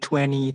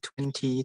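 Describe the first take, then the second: First: The t after the n is dropped. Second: The t after the n is clearly pronounced. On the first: "Yang 20 itu American" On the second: "yang 20 itu British"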